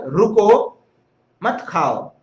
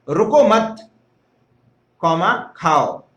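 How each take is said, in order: First: The pause comes right after 'ruko'. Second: The pause comes right after 'mat'.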